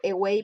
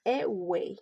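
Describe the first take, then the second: First: Said in the usual way. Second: "away" split up, stress on WAY; demonstrated word stress. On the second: Shown as a demonstration. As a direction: say "away" deliberately, stressing the second syllable. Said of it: "pronounced away".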